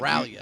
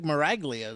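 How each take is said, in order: First: The G is silent, with no hard sound. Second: The G is pronounced as a hard sound. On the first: This is how the person herself says it. "That's what she said" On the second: This is how the spelling looks. "It looks like Maraglia to me"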